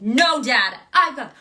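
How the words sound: It is said powerfully and forcefully.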